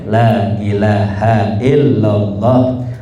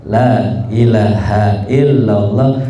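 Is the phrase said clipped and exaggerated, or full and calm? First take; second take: full; full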